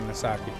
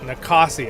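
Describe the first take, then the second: First: The second consonant is an s sound. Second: The second consonant is a k sound. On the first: "I always say Nasaki" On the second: "is that how you say it?"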